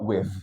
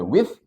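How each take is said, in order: First: WITH ends in a thick voiced th. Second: WITH ends in airy voiceless th; no buzz on the th of WITH; WITH with th as in "thin". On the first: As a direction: buzz the th at the end of WITH. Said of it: "dengan tebal". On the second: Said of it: "so you can say with atau". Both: Shown as a demonstration.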